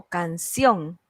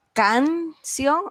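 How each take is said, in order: First: "canción" with the last syllable CIÓN strong; stress on CIÓN. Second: "canción" split, first syllable CAN long and raised; stress on CAN. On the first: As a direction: lean on the ending of "canción". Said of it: "¿Cuál de las dos?". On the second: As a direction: lean on CAN, then drop on ción. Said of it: "La sílaba tónica es". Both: Shown as a demonstration.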